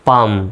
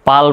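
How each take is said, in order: First: The L sound is silent. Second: The L sound is pronounced. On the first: The speaker calls it right. "এল এর উচ্চারণ silent" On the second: The speaker calls it wrong. "পালম নয়"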